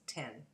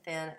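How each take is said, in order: First: The word begins with a t sound. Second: The word begins with a th sound. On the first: "it's tin" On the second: "Instead of thin"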